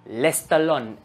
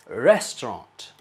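First: It is said as 'lestalon', with l sounds. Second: It is said in standard English.

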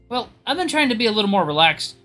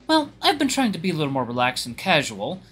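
First: It is said in an unusual, different voice. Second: It is said in the speaker's usual voice.

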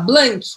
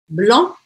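First: The final k sound is pronounced clearly. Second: The vowel is nasal and no final k. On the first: The speaker calls it wrong. "Eu vou falar blank? Não, eu não vou falar blank" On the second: The speaker calls it right. "Não pronuncia. ... abrindo um espaço dentro da minha boca"

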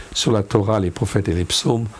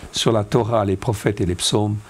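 The two takes are said the same way.

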